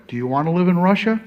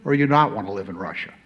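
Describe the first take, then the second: First: Rising, louder and quicker on the question; rising challenge. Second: "not" leaned on, quicker, falling back down; stress on not. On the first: Ambassador challenging the audience on the first choice, rising and loud. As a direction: push the first option up with a rising tone. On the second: Ambassador weighing the second choice for the audience, stressing not. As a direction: hit the word "not" to set the two choices apart. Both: Shown as a demonstration.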